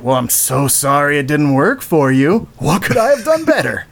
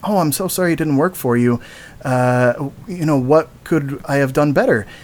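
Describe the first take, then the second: First: It sounds snide and sarcastic. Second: It sounds kind and sincere.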